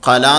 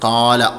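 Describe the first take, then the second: First: The first vowel is cut short. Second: The first vowel is held slightly longer. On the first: The speaker calls it wrong. "കല എന്ന് പറയാൻ പറ്റില്ല" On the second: The speaker calls it right. "ആ അലിഫിനെ നീട്ടാനുള്ളതാണ് ഇത്"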